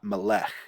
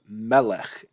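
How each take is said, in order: First: The stress is on the last syllable. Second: The stress is on the first syllable. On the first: The speaker calls it wrong. "and not melech" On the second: The speaker calls it right. "that's why I say this is melech"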